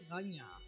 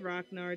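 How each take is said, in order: First: The name is said with a Norse pronunciation. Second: The name is said with an American pronunciation. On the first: The speaker calls it right. "they say Ragnar" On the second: The speaker calls it wrong. "they don't say Ragnar"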